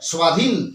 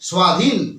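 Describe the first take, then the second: No difference in how they are said.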